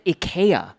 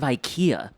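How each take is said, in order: First: It is pronounced the Norwegian way. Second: It is pronounced the usual English way. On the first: It is how a Norwegian speaker says it. "they said IKEA" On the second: It is how people here usually say it. "instead of IKEA"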